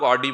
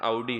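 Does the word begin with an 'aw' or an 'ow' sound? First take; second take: aw; ow. First: It begins with an 'aw' sound, as in 'saw'. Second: It begins with an 'ow' sound, as in 'cow'. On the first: The speaker calls it wrong. "अपन लोग ऑडी बोलते हैं उसको" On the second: The speaker calls it right. "Actual pronunciation आउडी है"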